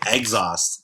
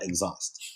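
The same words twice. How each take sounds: First: The first syllable sounds like the word eggs. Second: The first syllable does not sound like eggs. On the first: The speaker calls it wrong. "I say exhaust" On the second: The speaker calls it right. "not exhaust"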